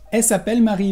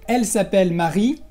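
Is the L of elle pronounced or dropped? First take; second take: dropped; pronounced. First: The L of elle is dropped. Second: The L of elle is pronounced. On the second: "En lugar de decir"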